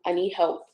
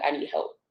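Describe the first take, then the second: First: Said in the usual way. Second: Breathy whispered inner plea; whispered quote. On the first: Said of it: "which I do". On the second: Retold or imitated. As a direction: say it under your breath, barely voiced. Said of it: "being like".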